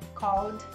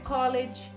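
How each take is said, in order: First: The ending is a plain d sound. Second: The ending adds an extra id syllable. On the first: The speaker calls it right. "Tem o somzinho do D" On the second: The speaker calls it wrong. "não é college"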